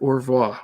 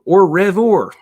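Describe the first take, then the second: First: It is said with a French-style pronunciation. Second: It is said with an exaggerated American redneck accent. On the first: "Am I saying that right?" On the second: "I could be like really redneck with it"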